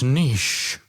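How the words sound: It is said like 'neesh', with a French sound. "We use the Francais pronunciation"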